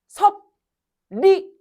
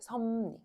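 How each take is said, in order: First: Both middle consonants are said as written. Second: Both middle consonants are changed. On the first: The speaker calls it wrong. "섭리 이렇게 발음하는 사람 없어" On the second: The speaker calls it right. "자연스럽게 하면 뭐가 되냐면 섭리가 돼"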